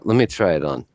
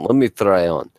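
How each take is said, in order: First: It is said in the speaker's plain accent. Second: It is said in a put-on Russian accent.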